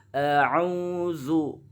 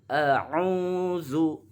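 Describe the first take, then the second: Both takes have the same delivery.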